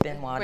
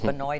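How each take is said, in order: First: It is pronounced the south Louisiana way. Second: It is pronounced the north Louisiana way. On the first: "it's Benoit down there" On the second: "It's Benoit up here"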